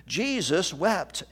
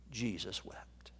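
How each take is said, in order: First: Slow, leaning hard on "Jesus"; slow emphatic. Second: "Jesus wept" breathed in a whisper, no voice. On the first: Preacher repeating the verse slowly, with emphasis. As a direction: draw out "Jesus wept" deliberately, weight on "Jesus". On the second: Preacher to grieving congregation, whispering the verse. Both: Real, not acted.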